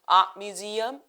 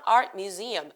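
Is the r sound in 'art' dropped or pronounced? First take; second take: dropped; pronounced. First: The r sound in 'art' is dropped. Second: The r sound in 'art' is pronounced. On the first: "완전 영국식 발음으로 ... 알 발음 탈락시켰죠?" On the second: "아니고"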